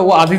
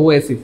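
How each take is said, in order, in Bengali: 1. মাঝের ব্যঞ্জনটি একটি z ধ্বনি। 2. মাঝের ব্যঞ্জনটি একটি s ধ্বনি। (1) "এর শব্দটা ও আজিজ হবে না" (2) "শব্দটা হবে ও এসিস"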